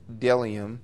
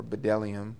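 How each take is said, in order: First: "bdellium" said as DEL-ee-um; silent-b pronunciation. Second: "bdellium" said as buh-DEL-ee-um; sounded-b pronunciation. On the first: Reading Moses' description of manna aloud, silent-b pronunciation. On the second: Preacher offering another way to pronounce it, sounded-b pronunciation. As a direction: sound the b in "bdellium" as its own syllable. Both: Shown as a demonstration. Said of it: "however you pronounce that".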